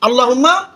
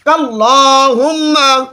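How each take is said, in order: First: The word starts with a vowel, no k. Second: The word starts with a k sound. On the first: The speaker calls it wrong. "আল্লাহুম্মা না" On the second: The speaker calls it right. "আল্লাহুম্মা বলা যাবে না, ঠিক আছে? কাল্লাহুম্মা"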